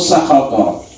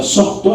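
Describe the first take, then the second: First: The word is longer, with three syllables. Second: The word is short, with two syllables. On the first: "bisa dibaca dua dengan dua cara baca" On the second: "bisa sukhtu atau sakhato ya"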